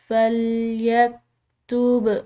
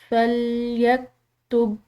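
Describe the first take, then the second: First: The final b is released with a bounce. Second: The final b is held closed without release. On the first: The speaker calls it right. "उसको हिलाते हुए अदा करना है। जैसे कि हम इसको पढ़ेंगे" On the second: The speaker calls it wrong. "बा को रोक कर, तो इस तरह ये दुरुस्त नहीं होगा"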